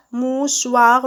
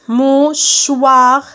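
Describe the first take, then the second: First: Said in the usual way. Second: Mouchoir loud and drawn out, in separate beats; syllable by syllable. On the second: Shown as a demonstration. Teacher cutting words into syllables, syllable by syllable. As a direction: stretch Mouchoir as MOU, then CHOIR. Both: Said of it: "je découpe les mots en syllabes".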